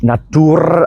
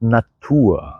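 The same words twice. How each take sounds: First: The ending is said with a clear r sound. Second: The ending is said as a soft a vowel. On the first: The speaker calls it wrong. "നത്തൂർ അല്ല" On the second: The speaker calls it right. "ആ ആയിട്ടാണ് പ്രൊണൗൺസ് ചെയ്യുന്നത്"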